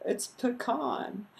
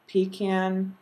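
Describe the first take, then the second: First: "pecan" said puh-KAHN, slow and higher; friend's pecan. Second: Pecan said PEE-can, stress on the first syllable. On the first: Retold or imitated. Friend correcting her, imitating puh-KAHN. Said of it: "He's like". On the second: Shown as a demonstration. Reading her list, pecan as PEE-can. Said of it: "because I say pecan".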